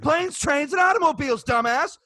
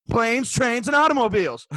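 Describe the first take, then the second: First: High-pitched, exasperated mock insistence; mock indignant repeat. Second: Raised, emphatic mock quote; mock declaration. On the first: Server parodying the rude customer insisting, mock indignant. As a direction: repeat it higher, as if to an idiot. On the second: Server mocking a customer's nonsense, emphatic. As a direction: announce the nonsense as if it were an argument.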